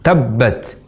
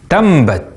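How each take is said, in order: First: The doubled b has no nasal sound before it. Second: A nasal m sound comes before the b. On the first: "saat mengucapkan tabbat" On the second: "terucap menjadi tambat ... ada penambahan huruf mim"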